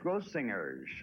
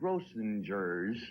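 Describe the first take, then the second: First: The G is said hard. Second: The G is said soft. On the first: The speaker calls it right. "with a hard G" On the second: The speaker calls it wrong. "pronounced it Grossingers"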